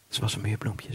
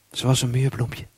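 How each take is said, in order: First: Softer echo of the line just said; quiet. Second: Said in the usual way. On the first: Shown as a demonstration. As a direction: drop to a soft, hushed repeat.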